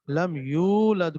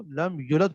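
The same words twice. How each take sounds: First: Said in the usual way. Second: لم یولد with the long oo cut to a short u; shortened vowel. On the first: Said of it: "کسی حرف کو کم کر دینا". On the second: Shown as a demonstration. Tajweed teacher demonstrates dropping a letter, shortened vowel. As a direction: clip the یو of لم یولد to a quick yu. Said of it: "کم کر دینا".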